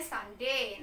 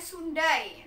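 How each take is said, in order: First: "Sunday" said "SAN-day", dropping lower; "Sunday" as it is read, "san-dey"; correct spoken form. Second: "Sundai" said as written, "soon-die"; "Sundai" as a spelling pronunciation; read as spelt. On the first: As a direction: pronounce "Sunday" with an ah in the first syllable. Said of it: "Nah, bacanya". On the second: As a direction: sound out "Sundai" with Indonesian letter values, oo then ai. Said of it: "Oh ya, tulisannya". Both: Shown as a demonstration.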